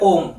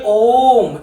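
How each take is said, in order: First: The vowel is said short, taking little time. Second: The vowel is held long and stretched out. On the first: "इसके उच्चारण में कम समय लग रहा है" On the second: "इसको मुझे ओम ऐसा बोलना पड़ेगा"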